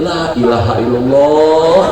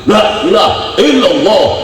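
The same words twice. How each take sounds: First: It is recited weakly and with low energy. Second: It is recited loudly and with strong energy. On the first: The reciter is burdened by unpaid debt. "nadanya beda" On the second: The reciter has plenty of money. "paling kencang suaranya"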